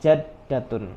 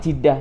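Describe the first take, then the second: First: It begins with 'ja' and ends with '-tun'. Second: It begins with 'ji' and has no '-tun' ending. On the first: This is the form correct by the grammar rules. "Tapi secara kaidah yang benar, pengucapan nenek itu adalah jaddatun" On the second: This is the everyday way people address a grandmother.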